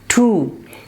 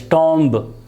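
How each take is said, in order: First: The vowel is a long oo sound. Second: The vowel is a short o sound. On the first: The speaker calls it right. "The correct pronunciation of this word is tomb" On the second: The speaker calls it wrong. "Normally you might have heard people pronouncing this word as tomb"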